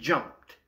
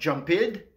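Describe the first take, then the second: First: The ending is a short t sound. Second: The ending is an extra id syllable. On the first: The speaker calls it right. "avec le son T" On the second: The speaker calls it wrong. "on comprend maintenant pourquoi ce n'est pas jumped"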